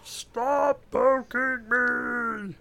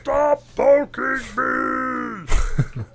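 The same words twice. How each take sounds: First: High, very slow exasperated whine; exasperated poked game character. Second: High, loud, very slow exasperated whine; exasperated poked game character. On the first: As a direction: stretch it out like a fed-up clicked unit. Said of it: "You just keep clicking". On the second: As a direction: drag out the complaint like a fed-up game unit. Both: Retold or imitated.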